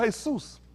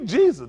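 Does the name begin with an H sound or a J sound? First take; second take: H sound; J sound. First: The name begins with an H sound. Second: The name begins with a J sound. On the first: The speaker calls it right. "The man tell you, no, Jesus. Now J make an A sound. Hey, he make a head sound" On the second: The speaker calls it wrong. "How I'm gonna tell the man his name? You Jesus"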